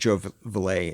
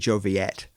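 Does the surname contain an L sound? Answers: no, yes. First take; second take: yes; no. First: The surname is said with an L sound. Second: The surname is said without an L sound. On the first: This is how people read the spelling. The speaker calls it wrong. "I'm pronouncing it Joe Villet" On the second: This is the name's actual pronunciation. The speaker calls it right. "It's actually Joe Viet"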